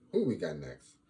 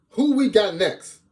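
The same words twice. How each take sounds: First: Said in the usual way. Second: High, loud, drawn-out call; stretched high-pitched shout; hollered question. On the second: Pretend. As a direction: holler it out to hype the crowd.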